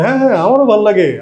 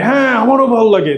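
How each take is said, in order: First: It is said in a plain, normal tone. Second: It is said with a forceful, emphatic tone.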